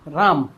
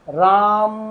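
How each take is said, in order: First: The word is said plainly with normal length. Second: The final vowel is drawn out long.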